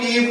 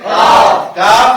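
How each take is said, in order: First: The vowel in the name is 'ee'. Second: The vowel in the name is 'a'. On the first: The speaker calls it wrong. "इसको कीफ नहीं पढ़ेंगे" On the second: The speaker calls it right. "काफ है"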